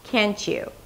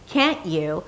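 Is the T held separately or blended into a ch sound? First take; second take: ch sound; held T. First: The T and y blend into a ch sound. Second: A held T is followed by a separate y sound. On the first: "these two words connect and turn into a ch sound" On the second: "a held T and then a yes sound"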